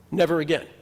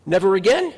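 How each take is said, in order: First: Settled, falling statement on again; firm never again. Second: Louder, rising question on again; questioning never again. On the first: Rabbi answering his own question, firm vow. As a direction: plant it down as a vow. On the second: Rabbi challenging the congregation, rising question. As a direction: toss it up as a doubting question. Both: Shown as a demonstration.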